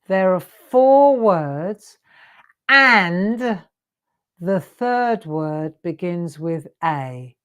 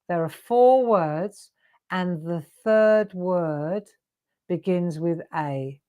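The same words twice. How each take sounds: First: It is said slowly. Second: It is said at normal speed.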